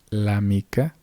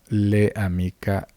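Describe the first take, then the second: First: The l joins directly onto amica. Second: An extra e vowel follows the l. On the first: The speaker calls it right. "Aquí dice la mica" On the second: The speaker calls it wrong. "vamos a crear otro tipo de fonemas que en realidad no están presentes"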